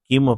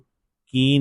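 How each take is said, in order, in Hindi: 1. शब्द साफ़ m ध्वनि से खत्म होता है। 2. शब्द स्वर से खत्म होता है, m के बिना। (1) "इसको आपने किम पढ़ना है" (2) "इसको की नहीं पढ़ना"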